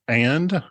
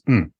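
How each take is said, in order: First: The word is said in full. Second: The word is reduced to a hum.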